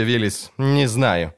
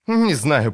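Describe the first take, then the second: First: Не знаю drawn out slowly; slow, weary repeat. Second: Said in the usual way. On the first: A narrator's reading. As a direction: repeat не знаю slower and heavier.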